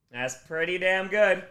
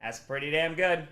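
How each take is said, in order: First: "good" stretched, higher and louder, slower; drawn-out emphatic repeat. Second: Said in the usual way. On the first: Real, not acted. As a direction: savour every word, louder and higher. Repeats, savouring it.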